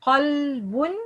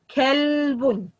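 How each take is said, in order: First: QALBUN, backed q and dark vowel; heavy qaf. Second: Kalbun with a light, forward k; KALBUN, thin light k; light kaf. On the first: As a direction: start qalbun far back at the throat. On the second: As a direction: start kalbun with a plain k and fronted vowel. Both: Shown as a demonstration. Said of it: "changing the qaf to kaf".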